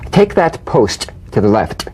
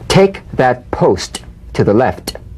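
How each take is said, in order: First: It is said naturally, focused on the meaning. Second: It is said slowly with exaggerated tapped sounds.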